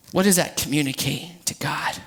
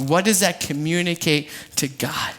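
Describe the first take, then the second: First: Low hushed whisper. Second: Said in the usual way. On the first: Real, not acted. Preacher whispering a question to the congregation.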